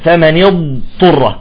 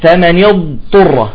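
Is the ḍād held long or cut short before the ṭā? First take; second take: held long; held long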